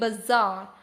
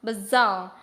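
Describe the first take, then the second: The two takes are said the same way.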